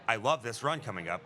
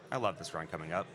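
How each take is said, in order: First: It is read with lively, high energy. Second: It is read flatly, with low energy. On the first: The donor sounds genuinely excited. The speaker calls it right. "if they put a little bit more energy into that donation read" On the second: The reader sounds bored. The speaker calls it wrong. "Or if it was just read like"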